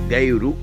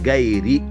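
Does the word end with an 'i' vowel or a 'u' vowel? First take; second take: u vowel; i vowel. First: The word ends with a 'u' vowel. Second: The word ends with an 'i' vowel. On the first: The speaker calls it wrong. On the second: The speaker calls it right.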